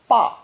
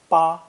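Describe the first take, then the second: First: The pitch falls sharply from high. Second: The pitch stays high and level. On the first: Father or papa. "spoken with a sharp falling tone" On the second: The number eight. "spoken with a high flat tone"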